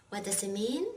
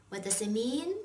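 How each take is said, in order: The two takes are said the same way.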